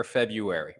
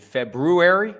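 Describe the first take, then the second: First: "February" without the first r, FEB-yoo-ary; r dropped. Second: "February" with the first r sounded, FEB-roo-ary; r pronounced. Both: Shown as a demonstration. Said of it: "is it February or February?".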